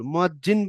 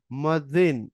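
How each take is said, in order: First: মুয়াজ্জিন said with j, muajjin; মুয়াজ্জিন pronounced with the Bengali j as muajjin; wrong pronunciation. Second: মুয়াজ্জিন with z, muazzin; মুয়াজ্জিন pronounced muazzin with a doubled z; correct pronunciation. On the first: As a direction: say মুয়াজ্জিন with a hard j. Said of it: "বললে ভুল". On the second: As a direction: say মুয়াজ্জিন with the Arabic z. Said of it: "এটার উচ্চারণ". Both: Shown as a demonstration.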